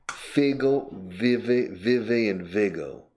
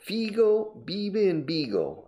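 First: The i vowels are short and lax, like English his. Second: The i vowels are tense, like Spanish i.

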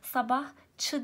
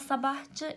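First: The ending starts with a voiceless ç sound. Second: The ending starts with a voiced c sound. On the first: The speaker calls it right. "Sabahçı diyorum ben buna. C harfi Ç'ye dönüşmüş" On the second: The speaker calls it wrong. "sabahçı şeklinde ifade etmem doğru olmaz"

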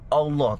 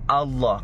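First: The first vowel sounds like a rounded 'o'. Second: The first vowel sounds like an open 'a'. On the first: The speaker calls it wrong. "A, bukan O. Bukan Allah" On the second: The speaker calls it right. "tapi A. Allah"

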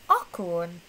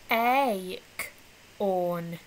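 First: The first vowel sounds like a short o. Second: The first vowel sounds like a long ay. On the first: The speaker calls it wrong. "Sounds like a o. ... That doesn't sound right" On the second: The speaker calls it right. "That sounds like an a"

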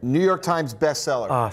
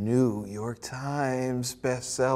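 First: The words are said quickly and plainly. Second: The words are said slowly and with feeling.

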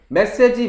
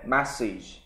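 First: It is said with Korean-style syllables. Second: It is said with English-style syllables. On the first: This is the habitual way learners have said it. The speaker calls it wrong. "지금까지 메시지, 메시지, 메시지 했는데" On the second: This is the new way learners must adopt. The speaker calls it right. "이걸 하루아침에 메시지 이걸 한다?"

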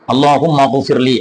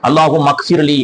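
First: The consonant is a throaty gh sound. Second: The consonant is a hard k sound. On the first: The speaker calls it right. "ரைன் என்ற உச்சரிப்பை நாம் செலுத்த வேண்டும்" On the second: The speaker calls it wrong. "காஃபை போட்டு கானாவை போட்டு நம்ம உச்சரிப்போம்"

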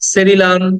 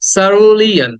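First: The word starts with a se sound. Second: The word starts with a short sa sound. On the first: The speaker calls it wrong. "এটাকে আমরা বলি সেরিলান" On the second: The speaker calls it right. "But the word should be like সারুলিয়ান, সা, এই আটাকে টেনে বলা যাবে না, short"

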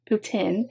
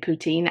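First: The word is said with a Canadian pronunciation. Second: The word is said with an American pronunciation. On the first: "I'm going to defer to the Canadian pronunciation" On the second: "in America we say poutine"

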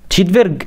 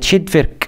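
First: The final consonant is a voiced g sound. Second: The final consonant is a voiceless k sound. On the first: The speaker calls it wrong. "هي مش تشيت فيرج" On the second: The speaker calls it right. "لأ هي تشيت فيرك"

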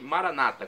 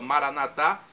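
First: The stress is on the second-to-last syllable. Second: The stress is on the last syllable. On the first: This is the Protestant pronunciation. "dizem Maranata com a tônica na penúltima sílaba" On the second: "Com a tônica na última sílaba, Maranatá é a pronúncia católica"

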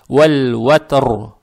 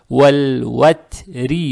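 First: The word ends on a hard r with no vowel. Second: The r is soft and followed by a short i. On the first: The reader stops after this word. "мы ро должны читать твердо" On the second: The reader continues on to the next word. "тогда ро читается мягко"

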